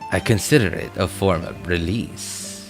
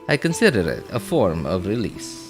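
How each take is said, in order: First: It is said in his ordinary accent. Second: It is said in a put-on Spanish-like accent.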